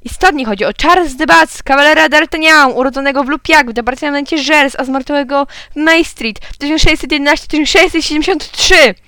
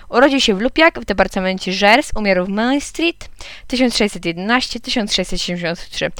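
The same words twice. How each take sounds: First: High, raised announcer voice; excited radio host. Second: Said in the usual way. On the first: A narrator's reading. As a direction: proclaim the winning answer, pitched up. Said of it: "krzyknął pan z radia". (podniesiony, wysoki głos prezentera radiowego) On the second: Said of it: "powiedziałem".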